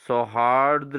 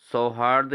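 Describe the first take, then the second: First: सौहार्द with an r added after d; correct pronunciation. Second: सौहार्द ending in simple "rd"; wrong pronunciation. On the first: Teacher corrects students, सौहार्द as "sauhaardra". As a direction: finish सौहार्द on "rdra". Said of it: "दौ के नीचे रौ भी लगाना है". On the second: Teacher shows students the error, सौहार्द without final r. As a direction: say सौहार्द as "sau-haard". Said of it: "नहीं दोस्तों". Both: Shown as a demonstration.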